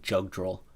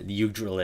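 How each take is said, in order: First: The name begins with a J sound. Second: The name begins with a Y sound. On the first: The speaker calls it wrong. "I always used to say Jugdrill, but that sounds wrong" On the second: The speaker calls it right. "Yugdrill it is"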